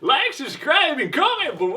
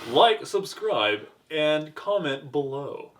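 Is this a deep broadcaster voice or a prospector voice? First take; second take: prospector; broadcaster. First: It is said in a put-on prospector voice. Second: It is said in a deep broadcaster voice. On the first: "Prospector voice" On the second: "That's a deeper voice"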